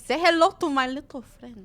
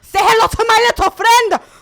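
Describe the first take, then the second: First: It is said without anger. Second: It is said with a lot of anger.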